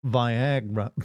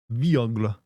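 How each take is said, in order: First: "Viagra" said vy-AG-ra, first syllable like "vie"; standard pronunciation. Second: "Viagra" said vee-OG-la, the r softened toward l; alternative pronunciation. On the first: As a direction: say "Viagra" with long i and flat American a. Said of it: "better way of pronouncing it". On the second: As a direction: say "Viagra" foreign-style, starting with vee. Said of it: "that sounds like it's better". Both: Shown as a demonstration.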